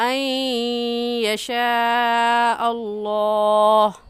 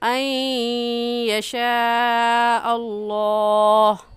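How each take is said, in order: First: The n merges, nasalized, into the following y. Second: The n merges, nasalized, into the following y.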